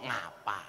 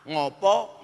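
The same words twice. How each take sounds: First: NGAPA with open a vowels, dropped low and soft; Ngapak a. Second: NGOPO with round o vowels; Javanese o. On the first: Preacher contrasting dialects for the audience, Ngapak "ngapa" with a. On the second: Preacher contrasting dialects for the audience, Javanese "ngopo" with o. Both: Shown as a demonstration. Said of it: "Kalau Jawa, oh, ngapak, ah".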